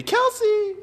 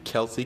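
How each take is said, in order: First: Sudden high, loud delighted call of the name; excited shout. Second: Said in the usual way. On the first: Real, not acted. Greeting a friend spotted in the livestream chat, excited shout.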